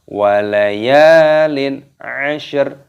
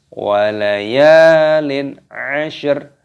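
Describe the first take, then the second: The two takes are said the same way.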